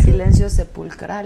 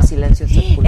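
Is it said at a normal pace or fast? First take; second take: normal; fast. First: It is said at a normal pace. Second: It is said fast.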